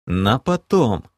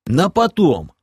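First: Amused snort. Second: Firm, loud and higher, flat refusal; categorical. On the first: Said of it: "хмыкнул я". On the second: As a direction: shut it down firmly. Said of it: "категорично ответил полуорк". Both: Acted.

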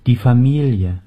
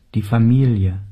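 Both takes have the same delivery.

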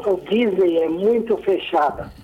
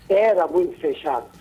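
First: Said in the usual way. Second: ERA stressed as a correction. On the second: Real, not acted. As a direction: lean on "era" to correct the tense. Corrects tense of first take.

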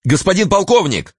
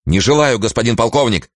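First: High flustered, glad call; flustered shout. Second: Stiff, dull, wooden reply. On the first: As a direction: call out confused but relieved. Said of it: "сметенно и в то же время обрадованно закричал". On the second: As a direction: answer in a flat, wooden voice. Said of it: "ответил он суконным голосом". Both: A narrator's reading.

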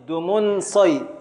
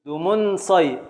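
First: Slow scansion. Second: Said in the usual way. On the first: Shown as a demonstration. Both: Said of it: "ابدأ في التقطيع".

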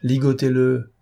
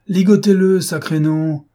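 First: Said in the usual way. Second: Loud, high, impatient command; angry shouted order. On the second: A narrator's reading. Lupin repeats his order to the bandits, angry shout. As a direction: bellow it at men who hesitate.

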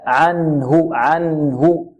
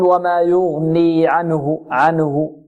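First: "عنه" slowly, the noon held vowelless; still noon. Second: "عنه" with a vowel slipped onto the noon; wrongly moved noon. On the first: Teacher corrects for students, "عنه" with a still noon. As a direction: rest clearly on the n in "عنه". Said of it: "لا". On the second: Teacher warns students, faulty "عنه" with a moved noon. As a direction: say "عنه" as if "anuhu". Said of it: "ونحذر من تحريك النون هنا". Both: Shown as a demonstration.

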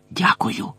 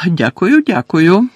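First: Soft, voiceless whisper; whispered thanks. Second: High-pitched, happily startled thanks; surprised, pleased thanks. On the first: George thanks Harry while hiding behind the tapestry, whispering. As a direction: whisper it under your breath. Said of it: "прошепотів Джордж". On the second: George accepts Hermione's praise, surprised and pleased. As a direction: say it lifted, a little surprised and glad. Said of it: "трохи здивувався і водночас зрадів Джордж". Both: A narrator's reading.

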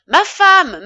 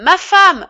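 First: Much higher, much louder panicked call for help; frantic husband calling his wife down. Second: Much higher, much louder repeated desperate cry; panicked husband shouting for his wife once more; calling out again in panic. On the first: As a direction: shout up the stairs for your wife. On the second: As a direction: call her again, still frantic. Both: A narrator's reading. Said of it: "appela Charles".

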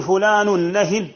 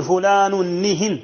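First: نهن said nahin, open a after the first n; slow, say نهن as na-hin; nahin with fatha. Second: نهن said nihin, i after the first n to match the second; slow, say نهن as ni-hin; nihin with kasra. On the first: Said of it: "نهن بفتح النون". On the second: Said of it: "بكسر النون للإتباع". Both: Shown as a demonstration.

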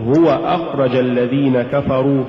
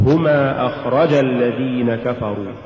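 First: Said in the usual way. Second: هما أخرج الذين كفروا with stress on رَ; أخرج accented on its رَ; dual-sounding stress. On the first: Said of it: "لأنني أقول". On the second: Shown as a demonstration. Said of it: "هو زيادة نبرة الراء".

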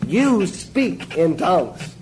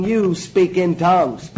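First: Very slow, every word stretched apart; slower emphasis. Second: Slow, deliberate, each word weighed; slow emphasis. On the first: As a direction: drag it out to drive it home. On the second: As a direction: spell it out slowly for them. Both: Shown as a demonstration. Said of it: "Reason I emphasize it that way".

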